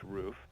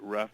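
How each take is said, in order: First: The vowel is long, as in 'roof'. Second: The vowel is short, as in 'rough'. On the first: The speaker calls it right. "but it's actually pronounced roof" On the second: The speaker calls it wrong. "Some people pronounce it rough"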